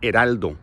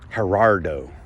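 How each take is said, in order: First: The name is said with an L sound. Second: The name is said without an L sound. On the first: This is the correct form of the name. The speaker calls it right. "The H is silent and the L is pronounced" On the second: This is how the family says the name. The speaker calls it wrong. "my family doesn't pronounce the L"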